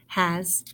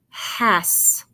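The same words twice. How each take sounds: First: The word ends with a buzzing z sound. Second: The word ends with a hissing s sound. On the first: The speaker calls it right. "So let's try the Z sound" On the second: The speaker calls it wrong. "you just tried to make the sounds, you'd say ass, has"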